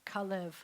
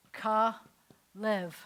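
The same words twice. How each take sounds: First: Said in the usual way. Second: Kalev drawn out, louder, stressed first syllable KA; name said out. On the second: Shown as a demonstration. Teacher to students, first take of Kalev, slow and stressed. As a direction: say "Kalev" slowly and firmly, KA-lev. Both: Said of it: "But his name was this".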